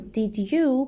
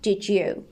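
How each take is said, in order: First: Each word is said fully and separately. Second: The words run together quickly into one.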